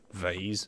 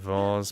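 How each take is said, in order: First: The word is said the American way. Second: The word is said in the speaker's usual way. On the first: "Americans say vase" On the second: "I normally say vase"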